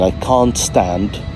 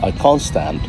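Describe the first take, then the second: First: The t at the end of can't is pronounced. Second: The t at the end of can't is dropped. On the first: "instead of saying" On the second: "the elision of the t sound"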